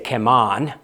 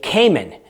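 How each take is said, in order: First: It is said the Caymanian way. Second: It is said the American way. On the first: "if you have a Caymanian accent, you would say Cayman" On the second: "here in America, we say Cayman"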